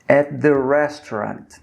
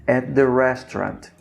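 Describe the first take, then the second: No difference in how they are said.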